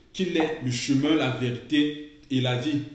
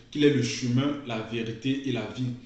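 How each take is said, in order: Both takes have the same delivery.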